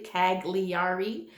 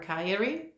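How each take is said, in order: First: The name is read phonetically, the American way. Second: The name is pronounced the Italian way.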